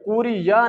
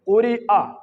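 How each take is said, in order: First: A y sound comes before the final vowel. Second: A glottal stop comes before the final vowel. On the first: The speaker calls it wrong. "कुरी या नहीं पढ़ेंगे" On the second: The speaker calls it right. "बल्कि कुरी आ"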